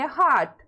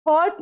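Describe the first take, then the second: First: हार्ट as "haat", open vowel for hot. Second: हॉट misread as "hote", long O; wrong long O. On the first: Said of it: "इसको क्या पढ़ेंगे". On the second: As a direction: say हॉट with a round "oh". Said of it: "नहीं पढ़ना है". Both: Shown as a demonstration.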